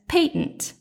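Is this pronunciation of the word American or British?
British. The word is said with a British pronunciation. "Victor's is the sophisticated British pronunciation"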